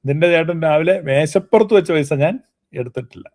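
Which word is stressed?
മേശപ്പുറത്ത്. The emphasis falls on 'on the table'. Money left in another place may have been taken. "മേശപ്പുറത്തുനിന്നുള്ളതിനെ ഊന്നൽ കൊടുക്കുകയാണ്"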